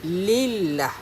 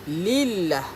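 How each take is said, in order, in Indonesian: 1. L-nya nipis dan ringan. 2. L-nya nipis dan ringan.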